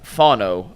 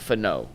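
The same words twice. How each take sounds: First: The stress is on the first syllable. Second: The stress is on the second syllable. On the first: The speaker calls it right. "capital on the fawn" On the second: The speaker calls it wrong. "not Fano"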